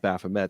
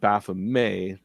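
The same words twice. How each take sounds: First: The final T is clearly sounded. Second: The final T is left silent. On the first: The speaker calls it wrong. "not Baphomet. So it's always so jarring when there's that hard T" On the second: The speaker calls it right. "it's always been Baphomet"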